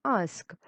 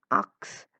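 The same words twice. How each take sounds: First: Said in the usual way. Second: "ux" said for "ask", short and clipped; mispronounced ask. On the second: Shown as a demonstration. Teacher showing the wrong "ux" for "ask". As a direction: say "ux" in place of "ask". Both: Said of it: "instead of saying".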